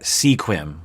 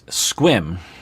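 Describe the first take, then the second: First: The word is said with two syllables. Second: The word is said with one syllable. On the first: The speaker calls it wrong. "a lot of people might think you pronounce that sequim" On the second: The speaker calls it right. "but it's Squim"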